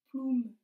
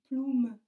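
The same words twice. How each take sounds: The two takes are said the same way.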